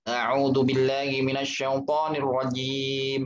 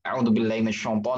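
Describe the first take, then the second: First: It is recited at a medium speed. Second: It is recited fast.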